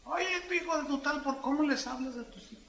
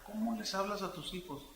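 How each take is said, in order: First: High, put-on voice of a crude parent; mock rough parent. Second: Said in the usual way. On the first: Preacher mimics a crude parent scolding his children. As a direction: ham up a parent snapping at his kid. Parent talking rudely to kids.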